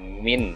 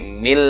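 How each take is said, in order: First: The word ends with a clear n sound. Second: The word ends with an l sound. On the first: The speaker calls it wrong. "bukan min" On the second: The speaker calls it right. "tapi mil ladunni"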